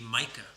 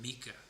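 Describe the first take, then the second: First: The first vowel has a long sound. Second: The first vowel does not have a long sound. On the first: "the vowel in the middle is extended, meaning it has a long sound" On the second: "Most people don't pronounce it MICA"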